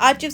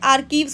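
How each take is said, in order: First: The middle consonant sounds like 'ch' in 'church'. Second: The middle consonant sounds like 'k' in 'kite'. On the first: The speaker calls it wrong. "आर्चीव्स नहीं" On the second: The speaker calls it right. "आर्कीव्स होता है"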